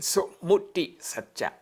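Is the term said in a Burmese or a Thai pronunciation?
Thai. The term is said with a Thai pronunciation. "In Thai pronunciation"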